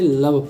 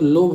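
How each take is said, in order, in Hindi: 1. स्वर छोटी 'uh' ध्वनि है। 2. स्वर लंबी 'o' ध्वनि है। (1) "बट इसे लव पढ़ते हैं" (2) "इसके अकॉर्डिंग तो लोभ होना चाहिए"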